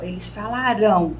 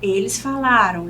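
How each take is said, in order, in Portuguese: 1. A tônica do verbo está na última sílaba. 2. A tônica do verbo está na penúltima sílaba. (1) "a sílaba mais forte é a última" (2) "Quando a palavra for paroxítono"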